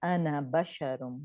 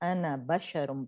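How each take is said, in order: Both takes have the same delivery.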